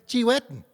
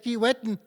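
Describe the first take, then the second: First: It begins with a 'ch' sound, eastern way. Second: It begins with a 'k' sound, western way.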